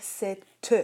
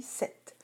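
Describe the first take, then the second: First: "sept" in two syllables, ending in a sounded -teu; "sept" split as sè-teu for dictation; spelling pronunciation. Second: Said in the usual way. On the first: Shown as a demonstration. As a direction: add an audible e after the t of "sept". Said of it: "tu devrais écrire". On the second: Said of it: "lorsqu'on le dit".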